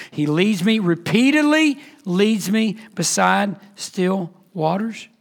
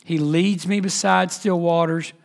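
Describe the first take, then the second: First: "repeatedly" drawn out for emphasis; emphatic repetition. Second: Said in the usual way. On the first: Shown as a demonstration. Preacher stressing the shepherd's constant leading, emphatic on "repeatedly". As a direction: lean slowly on "repeatedly", then space out "still waters". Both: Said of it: "It's emphatic".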